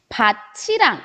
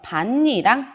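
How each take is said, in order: First: The middle consonant sounds like ch. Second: The middle consonants sound like n. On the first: The speaker calls it wrong. "밭이랑 이렇게 읽어주지 않고요" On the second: The speaker calls it right. "밭니랑 이런 식으로 발음이 달라진다"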